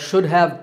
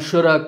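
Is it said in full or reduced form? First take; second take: full; reduced. First: Both words are said fully and separately. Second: The words blend into one reduced form. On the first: "words like should have" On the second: "become shoulda"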